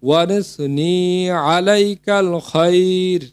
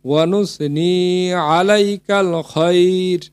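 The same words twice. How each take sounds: No difference in how they are said.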